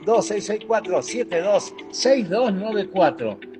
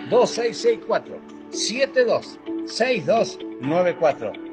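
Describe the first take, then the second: First: The number is said quickly. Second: The number is said slowly.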